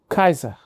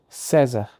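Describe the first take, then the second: First: The name begins with a hard K sound. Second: The name begins with a soft S sound. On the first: The speaker calls it right. "se dizia Kaiser" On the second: The speaker calls it wrong. "Júlio César não se dizia César"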